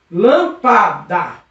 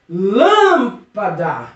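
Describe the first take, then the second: First: "Lâmpada" devagar, separada em lâm, pa, da; sílaba por sílaba. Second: "Lâmpada" with LÂM long and drawn out; strong first syllable. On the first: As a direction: split "Lâmpada" slowly into three syllables, setting PA apart. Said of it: "vamos ver a penúltima sílaba". ("Lâmpada" silabado, bem devagar) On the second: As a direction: stretch the stressed LÂM in "Lâmpada", then a quick pa-da. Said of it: "Percebeu que essa sílaba é forte". ("Lâmpada" com LÂM forte e bem alongado) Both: Shown as a demonstration.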